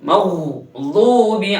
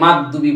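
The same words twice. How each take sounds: First: The 'gh' sound is thick and heavy. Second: The 'gh' sound is a light Bengali g. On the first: The speaker calls it right. "মাগ ওয়ানের উচ্চারণটা মোটা করবেন" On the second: The speaker calls it wrong. "অনেকে মাগদুবি বলে দেয়, মাগ মানে বাংলার মতো"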